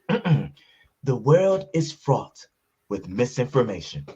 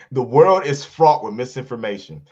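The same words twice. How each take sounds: First: It is read in an exaggerated put-on voice. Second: It is read in the speaker's ordinary voice. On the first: The words are voiced as the original writer would say them. "please please stop doing the voice?" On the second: The words are simply read out. "My bad"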